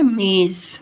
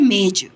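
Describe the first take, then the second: First: The final consonant is a soft z sound. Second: The final consonant is a hard j sound. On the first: "और वैसे क्या बोल रहे हैं ... softness आ जाती है, वो हार्ड नहीं लगता है" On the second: "अगर ये बिंदी नहीं होती तो हम इसको क्या बोलते हैं"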